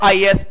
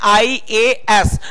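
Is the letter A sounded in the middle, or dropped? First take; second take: dropped; sounded. First: The middle A is dropped, leaving two letters. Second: All three letters are sounded, including the middle A. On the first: The speaker calls it wrong. "ना कि आईएस। आईएस बहुत लोग बोलते रहते हैं" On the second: The speaker calls it right. "आप लोग क्या बोलना है"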